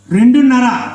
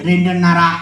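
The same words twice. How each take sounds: First: Raised questioning repeat; incredulous echo. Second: Matter-of-fact puppet answer; puppet character. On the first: Ventriloquist questioning the puppet's child count, incredulous. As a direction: question it with mild disbelief. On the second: Puppet telling how many children it has, puppet voice. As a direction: answer in the dummy's voice, unexcited. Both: Acted.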